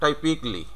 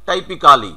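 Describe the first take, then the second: First: "টাইপিকলি" in three syllables, taipik-li; "টাইপিকলি" softer, ending in "pik-li"; correct "typically". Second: "টাইপিক্যালি" with a full "kaa" before "li"; all four syllables of "টাইপিক্যালি" sounded; local "টাইপিক্যালি". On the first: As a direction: say "টাইপিকলি" with no "kaa". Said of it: "এটা কি উচ্চারণ হবে". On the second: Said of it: "আমরা কিন্তু এভাবেই উচ্চারণ করে". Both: Shown as a demonstration.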